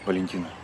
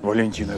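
First: The name is said plainly without pathos. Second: The name is said grandly and with pathos. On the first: It sounds like sincere words said personally. The speaker calls it right. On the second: It sounds like a formal, theatrical farewell speech. The speaker calls it wrong.

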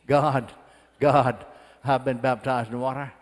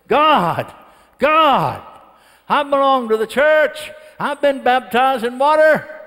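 First: It is said at a normal volume. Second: It is said somewhat louder.

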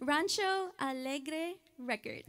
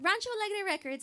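First: It is said more slowly. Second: It is said at normal speed.

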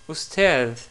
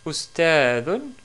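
First: The word stops without the final '-un' ending. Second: The word ends with a final '-un' ending.

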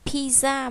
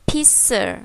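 First: The word is said the Vietnamese loanword way. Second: The word is said the English way. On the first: The speaker calls it wrong. "Chúng ta không đọc là pizza" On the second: The speaker calls it right. "mà chúng ta sẽ đọc là pizza"

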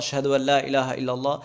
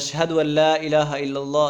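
No difference in how they are said.

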